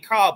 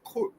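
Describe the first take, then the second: First: The vowel sounds like the 'ar' in far. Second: The vowel sounds like the 'ur' in fur. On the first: "I say car" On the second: "it had like a hard U sound"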